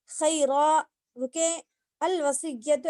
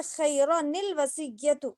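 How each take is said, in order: First: Slow, pausing after खैरा then अल वसिय्यतु; recitation with a stop. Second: Slow, linking नून into निल वसिय्यतु; joined recitation with nun qutni. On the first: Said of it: "ऐसे पढ़ेंगे". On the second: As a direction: read खैरा निल वसिय्यतु joined, sounding the small nun. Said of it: "वक्फ ना करने की सूरत में". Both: Shown as a demonstration.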